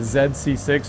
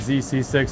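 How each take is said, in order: First: The letter Z is said the non-American way. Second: The letter Z is said the American way.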